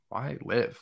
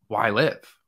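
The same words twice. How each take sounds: First: It sounds dark and despairing. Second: It sounds curious and hopeful.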